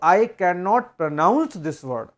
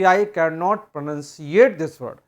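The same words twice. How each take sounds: First: Slow, careful "pronounce" said as pro-NOUNCE, the right English word; correct pronounce. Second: Slow "pronunciate" said as pro-NUN-see-ate, the made-up wrong word. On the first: Teacher shows students the correct sentence, slow and careful. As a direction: spell out "pronounce" slowly as the correct form. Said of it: "तो आपको ये बोलना पड़ेगा कि". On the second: Teacher shows students the common wrong sentence, slow and careful. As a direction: spell out the wrong form "pronunciate" slowly. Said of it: "ये कहना बिल्कुल गलत है कि". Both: Shown as a demonstration.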